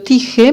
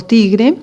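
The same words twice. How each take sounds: First: "tige" said without the R, as tee-heh; "tige", with no R after the g; child's misspelling read aloud. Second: Said in the usual way. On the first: Shown as a demonstration. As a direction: read "tige" exactly as the child wrote it, dropping the R. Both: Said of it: "escribió tige por tigre".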